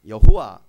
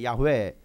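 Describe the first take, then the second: First: The name is pronounced yeo-ho-wa, three syllables. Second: The name is pronounced ya-hwe, two syllables. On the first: The speaker calls it wrong. "더 정확히 발음하면 여호와가 아니라" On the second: The speaker calls it right. "더 정확히 발음하면 ... 야훼입니다"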